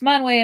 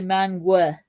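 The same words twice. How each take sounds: First: The name ends in a vowel other than uh. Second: The name ends in an uh sound.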